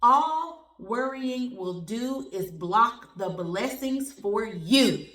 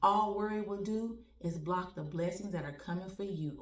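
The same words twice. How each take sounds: First: Slow, louder, every word weighted; slow loud slogan delivery; emphatic slogan. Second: Said in the usual way. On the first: Shown as a demonstration. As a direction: say it like a motto. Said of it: "put that on the shirt". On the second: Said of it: "I'm telling you, my friends".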